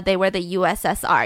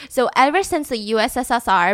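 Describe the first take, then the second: First: Said in the usual way. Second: U S S R with an extra S slipped in. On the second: Real, not acted. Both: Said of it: "that was too many S's".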